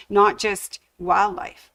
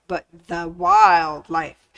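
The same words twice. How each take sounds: First: Said in the usual way. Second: "the" punched and drawn out, slow; stress on THE. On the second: Shown as a demonstration. Quilting host sets the theme, stressing "the". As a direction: lean hard on "the" in "the wildlife".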